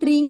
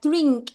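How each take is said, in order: First: The word ends without a final K sound. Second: The word ends with a clear final K sound. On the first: The speaker calls it wrong. "bukan drink, tapi pakai K belakangnya" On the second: The speaker calls it right. "pakai K belakangnya"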